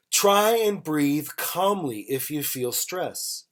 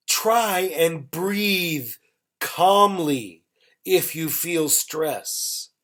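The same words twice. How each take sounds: First: Said in the usual way. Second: Very slow, phrase by phrase; unhurried teacher's example with gaps; slow model sentence. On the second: Shown as a demonstration. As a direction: draw out each phrase for learners, pausing between them. Teacher models example slowly, then repeats.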